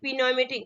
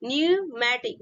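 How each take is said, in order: First: The word begins with a sounded P. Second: The word begins with a silent P. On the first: The speaker calls it wrong. "बहुत लोग क्या पढ़ते हैं" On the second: The speaker calls it right. "Correct pronunciation होगा आपका न्यूमैटिक"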